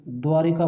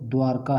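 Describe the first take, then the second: First: द्वारिका with a short "i" slipped in after r; mispronunciation. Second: द्वारका with no vowel between r and k; correct pronunciation. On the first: Teacher warns students of the faulty form, द्वारिका with an added i. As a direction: say द्वारिका as three syllables, dwaa-ri-kaa. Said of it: "ये गलत है". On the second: Teacher gives the grammatically pure form, द्वारका as dwaar-kaa without an i. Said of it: "जो शुद्ध शब्द है". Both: Shown as a demonstration.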